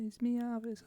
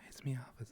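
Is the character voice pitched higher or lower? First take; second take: higher; lower. First: The put-on voice is pitched higher. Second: The put-on voice is pitched lower. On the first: The speaker calls it right. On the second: The speaker calls it wrong.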